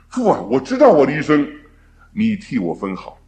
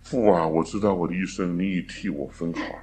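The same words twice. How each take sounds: First: It is said in a joyful, glad tone. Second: It is said in a resigned, helpless tone. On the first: The future is welcomed with trust. The speaker calls it right. "我们可以欢乐的来唱这首诗歌" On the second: There is nothing to be done but accept it. The speaker calls it wrong. "莫可奈何的唱啊"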